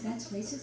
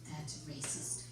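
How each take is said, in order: First: Incredulous rising question on "That's racist?"; questioning echo. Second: Hushed, low retold whisper; very soft, low mock whisper; imitated whisper. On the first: Retold or imitated. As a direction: repeat it aloud as a question. Repeats daughter's whisper as a question. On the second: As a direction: whisper it like a disapproving daughter. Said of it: "She whispers".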